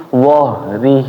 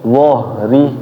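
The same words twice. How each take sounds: The two takes are said the same way.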